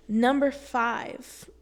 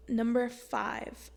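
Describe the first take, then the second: First: Number five called out louder and slow; announcing number five. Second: Said in the usual way. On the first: Shown as a demonstration. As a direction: announce "Number five" like a list heading, loud and drawn out.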